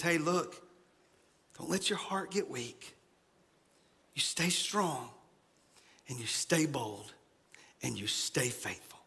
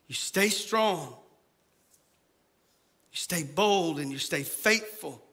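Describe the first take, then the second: First: Soft and low, fading into a whisper; soft comfort. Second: Said in the usual way. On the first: Retold or imitated. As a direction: hush them into courage. Paraphrase of Isaiah's comfort. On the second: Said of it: "repeats the charge".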